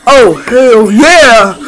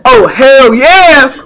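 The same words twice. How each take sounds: First: Excited cheer. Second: Slow drawn out hell yeah; excited cheer. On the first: Pretend. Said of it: "I wanted to say it". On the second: Shown as a demonstration. Showing someone how to say the catchphrase, slow cheer. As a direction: drag out "Oh, hell yeah!" with a falling yeah. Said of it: "Go say".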